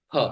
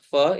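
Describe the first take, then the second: First: It starts with a p and a puff of breath. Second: It starts with an f sound. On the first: The speaker calls it right. "In Sanskrit it is what?" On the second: The speaker calls it wrong. "But actually it is not fa"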